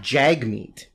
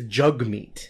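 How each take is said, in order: First: The first vowel sounds like the one in 'bag'. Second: The first vowel sounds like the one in 'bug'. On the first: The speaker calls it wrong. "everybody's been mispronouncing his first name" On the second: The speaker calls it right. "It's Jugmeet"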